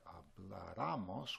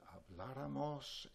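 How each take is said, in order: First: Habláramos with stress moved to the third syllable, ra; wrong stress without accent. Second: Habláramos with stress on the second syllable, blá; correct stress. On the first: Teacher shows how habláramos sounds without its accent, misstressed. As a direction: say habláramos as hablaRAmos, the unaccented mistake. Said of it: "it would sound like habláramos". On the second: Teacher models habláramos with stress on blá. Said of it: "we need an accent there". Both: Shown as a demonstration.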